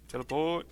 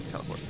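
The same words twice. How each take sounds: First: Rising, louder call of Teleport!; Teleport! repeated with a rising, louder push; louder second try. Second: Said in the usual way. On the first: Real, not acted. Player calling the spell again, louder.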